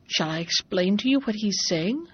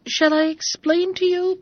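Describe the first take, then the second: First: Said in the usual way. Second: Much higher, louder eager offer. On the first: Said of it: "said Bobino". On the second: Acted. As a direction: jump in eagerly over the noise. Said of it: "began Bobino".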